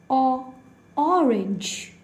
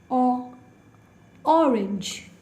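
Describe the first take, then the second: Both takes have the same delivery.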